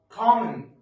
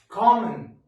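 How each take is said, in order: No difference in how they are said.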